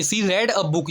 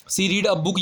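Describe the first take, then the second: First: "read" said like "red"; "read" rhyming with "bed"; past-tense "read". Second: "read" said like "reed"; "read" rhyming with "need"; present-tense "read". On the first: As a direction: say "read" with a short e. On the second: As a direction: say "read" with a long ee. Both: Shown as a demonstration. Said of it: "ये भी past tense का".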